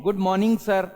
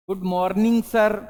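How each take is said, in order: First: good मॉर्निंग sir with no r in मॉर्निंग, mɔnɪ̃ŋɡ; silent r. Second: good मॉर्निंग sir with the r in मॉर्निंग pronounced, mɔɾnɪ̃ŋɡ; the r in मॉर्निंग rolled clearly, the version to avoid; r sounded in morning. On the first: Teacher models fluent spoken English: silent r in मॉर्निंग. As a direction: drop the r in मॉर्निंग, say it mawning. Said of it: "आर को आप बिल्कुल silent कर देंगे". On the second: Teacher shows students the wrong way: मॉर्निंग with the r said. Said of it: "मेरे को हजम नहीं हो रहा है". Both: Shown as a demonstration.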